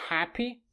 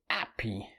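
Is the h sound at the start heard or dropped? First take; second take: heard; dropped. First: The word begins with a clear h sound. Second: The word begins with no h sound. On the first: "the word happy" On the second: "they would say happy"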